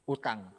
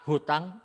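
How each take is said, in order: First: The word begins directly with a vowel. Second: The word begins with an h sound.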